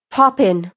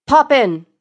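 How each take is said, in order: First: Said in the usual way. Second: Louder, higher, emphatic vote; collective agreement. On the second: Acted. Four lords voting as one, emphatic collective agreement. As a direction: call out the verdict decisively. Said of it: "they collectively agree".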